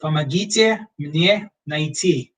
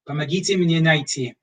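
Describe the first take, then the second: First: Помогите мне найти, slow and spaced, "pa-ma-GI-tye mnye nai-TI"; slow phrase for lost tourists; slow Russian demo. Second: Помогите мне найти at normal pace, "pa-ma-GI-tye mnye nai-TI"; Russian repeat. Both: Shown as a demonstration. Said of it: "If you're lost".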